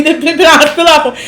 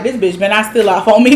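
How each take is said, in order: First: High, fast nervous mutter through laughter; hammed-up panicky inner voice; mock tense. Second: Understated, quick worried thought; mildly mock someone bracing for a hit; tense inner thought. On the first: Host mocking Summer walking past Ivory, hammed-up tense. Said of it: "She was so tense". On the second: Host voicing Summer walking past Ivory, mildly tense. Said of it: "you can tell that Summer was tensed up".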